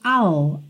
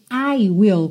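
First: The words are contracted into one syllable. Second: Both words are said in full, two syllables. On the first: "contraído fica I'll" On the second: "Esse I will contraído fica I'll"

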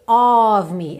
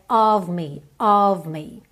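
First: The O in of is fully rounded, over-articulated. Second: The O in of is short and reduced. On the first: The speaker calls it wrong. "não é aquele O super desenhado" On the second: The speaker calls it right. "é of me"

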